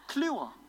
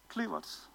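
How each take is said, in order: First: The name ends without a t sound. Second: The name ends with a t sound. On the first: The speaker calls it right. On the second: The speaker calls it wrong.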